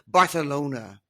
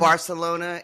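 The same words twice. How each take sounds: First: It is said with a Spain Spanish accent. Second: It is said without a Spain Spanish accent.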